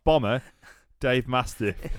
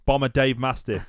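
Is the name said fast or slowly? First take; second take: slowly; fast. First: The name is said slowly and separately. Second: The name is run together quickly. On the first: The speaker calls it wrong. "It's not Bomber Dave Mastiff" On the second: The speaker calls it right. "They're very quick with saying"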